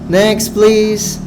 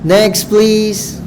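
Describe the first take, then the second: No difference in how they are said.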